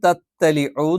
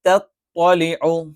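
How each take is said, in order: First: The second consonant is a plain, light t sound. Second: The second consonant is a heavy, emphatic t sound. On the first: The speaker calls it wrong. "ത ആക്കി മറിച്ചിട്ട് തത്തലിഉ എന്ന് പറയും" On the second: The speaker calls it right. "ശരിക്ക് തത്തലിഉ"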